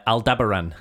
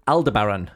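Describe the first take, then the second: First: Aldebaran said as al-DEB-er-un; stress on DEB. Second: Aldebaran said as al-duh-BARR-un; stress on BAR. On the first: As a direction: punch the second syllable of Aldebaran, al-DEB-er-un. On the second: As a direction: lean on the third syllable of Aldebaran, al-duh-BARR-un. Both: Shown as a demonstration. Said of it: "depending on how you pronounce it".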